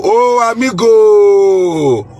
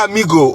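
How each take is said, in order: First: Long, slow, louder "Oh, amigo" sung out; excited drawn-out greeting. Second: Said in the usual way. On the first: Real, not acted. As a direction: warmly hail your amigo, slow and loud. Greeting viewers in many languages.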